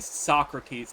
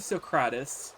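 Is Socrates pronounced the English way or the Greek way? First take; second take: English; Greek. First: The name is pronounced the usual English way. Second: The name is pronounced the way it sounds in Greek. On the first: This is how other people say it. The speaker calls it wrong. "people who say Socrates" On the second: This is how it is said in Greek. The speaker calls it right. "that's how you're supposed to say it in actual Greek"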